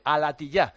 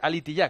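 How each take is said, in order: First: The second vowel sounds like 'a'. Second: The second vowel sounds like 'i'. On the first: The speaker calls it right. "que se dice alatillá" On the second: The speaker calls it wrong. "no se dice alitillá"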